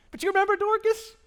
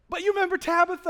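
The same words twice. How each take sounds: First: High, loud goofy voice on Dorcas; silly funny voice. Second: Said in the usual way. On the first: Pretend. Pastor jokes about the name Dorcas in a goofy voice. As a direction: ham up the odd name for a laugh. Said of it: "'cause I can't do that with a straight face". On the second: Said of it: "Let's call her Tabitha".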